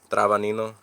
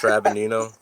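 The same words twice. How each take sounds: First: "Travanino" said the Italian way; Italian pronunciation. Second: "Trabinino" in an English accent; name pronunciation. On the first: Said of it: "it's Italiano". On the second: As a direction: say "Trabinino" the American way, flat English vowels. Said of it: "don't know how to say your last name". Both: Shown as a demonstration.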